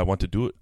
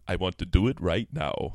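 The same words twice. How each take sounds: First: Said in the usual way. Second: Low, hammed-up seductive voice; mock-sultry and low; sexy voice. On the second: Shown as a demonstration. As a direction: say it deep, as a come-on. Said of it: "this is my sexy voice".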